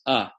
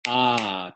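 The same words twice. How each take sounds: First: The vowel is short. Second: The vowel is long. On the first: "one finger snap" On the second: "two finger snaps"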